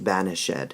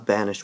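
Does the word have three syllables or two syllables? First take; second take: three; two. First: The word is said with three syllables. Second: The word is said with two syllables. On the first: This is how it was said back then. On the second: This is the modern way of saying it.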